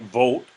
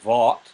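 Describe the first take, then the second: First: The vowel is a close, rounded oh. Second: The vowel is an open aw sound. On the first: "it's not quite vote" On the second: "It's not quite vaught"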